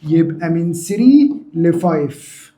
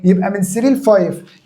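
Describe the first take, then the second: First: Drawn out at dictation speed; slow, deliberate repeat. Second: Said in the usual way. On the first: Shown as a demonstration. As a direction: stretch each part of the answer slowly. Teacher repeats answer slowly for class. (إعادة ببطء وتمهّل)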